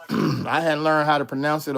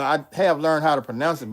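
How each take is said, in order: First: Said in the usual way. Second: "have" leaned on as a correction; stress on have. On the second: Real, not acted. Streamer correcting own claim about Russian, stressing "have". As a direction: correct yourself by hitting the word "have".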